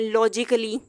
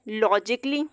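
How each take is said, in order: First: An extra vowel is sounded before the ending. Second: No extra vowel is sounded before the ending. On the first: The speaker calls it wrong. "इस तरह से नहीं पढ़ सकते हैं" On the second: The speaker calls it right. "ए यहाँ पे pronounce नहीं किया जाएगा"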